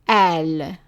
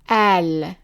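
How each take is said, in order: First: The word starts with a glottal stop. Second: The word starts with a glottal stop.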